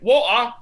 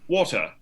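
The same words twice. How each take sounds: First: It is said in a North London accent. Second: It is said in a BBC British accent. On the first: "then their teachers are like" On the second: "then like on the B B C, they're like"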